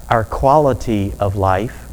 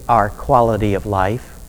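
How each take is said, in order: Both takes have the same delivery.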